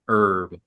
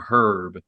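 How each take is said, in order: First: The word begins without any H sound. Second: The word begins with a clearly sounded H. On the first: "not like herb" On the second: "it's pronounced with a hard H"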